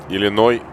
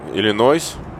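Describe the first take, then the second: First: The word ends without an s sound. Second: The word ends with an s sound.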